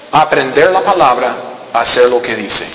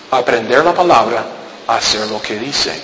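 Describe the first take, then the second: First: Aprender la palabra, hacer lo que dice spaced out and dropping low; slow stressed phrase. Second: Aprender la palabra, hacer lo que dice again, lower and fading soft; softer lower repeat. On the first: Preacher stressing the simple rule to the church, slow and low. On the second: Preacher repeating the rule quietly to the church, low and soft. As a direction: drop it to a soft low echo. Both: Shown as a demonstration. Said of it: "Es tan sencillo".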